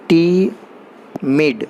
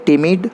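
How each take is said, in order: First: टीमिड stretched very slowly, two clear beats टी-मिड; split into syllables. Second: Said in the usual way. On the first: Shown as a demonstration. Teacher showing students that टीमिड has two syllables, said slowly beat by beat. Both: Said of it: "इसको दो बार में पढ़ा जा रहा है".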